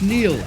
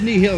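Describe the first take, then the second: First: The name is said as one syllable. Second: The name is said with two syllables. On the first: The speaker calls it right. "it's pronounced Neil" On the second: The speaker calls it wrong. "It's not pronounced Nihil"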